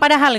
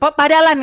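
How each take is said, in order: First: The word is said with its standard sounds. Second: The h is dropped and it ends in n. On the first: The speaker calls it right. "Dia nggak bisa bilang padahal itu" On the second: The speaker calls it wrong. "padalan gitu"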